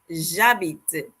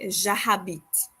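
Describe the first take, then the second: First: The h at the start is silent. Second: The h at the start is sounded. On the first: The speaker calls it right. "We say j'habite. So we pretend like the, the letter H doesn't exist" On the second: The speaker calls it wrong. "we don't say j'habite, okay? That is er, wrong"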